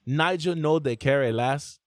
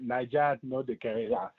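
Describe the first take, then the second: First: Nigerian accent. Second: Nigerian Pidgin, "Niger" said as "naija"; Nigerian accent. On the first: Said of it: "How's that supposed to sound?". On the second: Host's guest shows him the proper Nigerian pidgin, Nigerian accent. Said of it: "it's the way you're saying Niger". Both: Shown as a demonstration.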